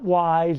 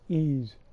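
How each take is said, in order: First: The name begins with a W sound. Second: The name begins with an ee vowel sound. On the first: This is the common pronunciation. The speaker calls it wrong. "It's not Wise. Everybody pronounce it Wise" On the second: This is the original pronunciation. The speaker calls it right. "it's Ease. That's how it was pronounced"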